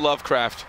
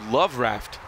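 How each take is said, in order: First: A k sound is heard before raft. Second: No k sound is heard before raft. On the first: The speaker calls it wrong. "Have we been pronouncing it wrong the whole time?" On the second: The speaker calls it right. "Is it supposed to be Love Raft?"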